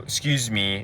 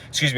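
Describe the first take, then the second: First: It is said slowly, followed by a pause. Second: It is said quickly, run into what follows. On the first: It sounds spontaneous and charismatic. The speaker calls it right. "slow it down, really slow it down" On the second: It sounds like a line used on many people. The speaker calls it wrong. "If you just say it quickly"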